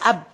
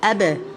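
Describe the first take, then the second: First: The final b stays closed with no bounce. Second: The lips part, giving the final b a bounce. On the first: "we are using the two lips to pronounce the ba, saying ab" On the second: "you're gonna part between them, saying abe"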